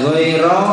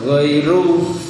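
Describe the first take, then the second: First: The word ends in an 'a' vowel. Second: The word ends in a 'u' vowel. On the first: The word stands in the accusative case. "Bisa dibaca mansub goiro" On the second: The word follows the case of the preceding noun. "mengikuti, jadi goiru"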